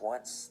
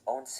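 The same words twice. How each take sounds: First: It is said like the English word 'once'. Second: It is said the Spanish way, as two syllables. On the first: The speaker calls it wrong. "it's not pronounced once, like some of you probably think" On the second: The speaker calls it right. "eleven is once"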